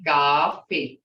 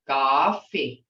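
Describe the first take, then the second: First: Coffee with an open ah, louder and falling; Muskogee coffee. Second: Coffee with the English vowel, falling. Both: Shown as a demonstration. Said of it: "See, hear that difference?".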